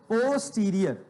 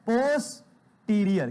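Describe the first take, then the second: First: Said in the usual way. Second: Slow, stretched pronunciation of posterior; drawn-out term. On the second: Shown as a demonstration. Teacher drills students, slowly stretching posterior. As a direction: spell it out with sound, slowly. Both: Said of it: "क्या बोलोगे बेटा?".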